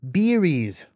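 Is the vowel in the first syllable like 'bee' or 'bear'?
bee. The first vowel sounds close to 'ee'.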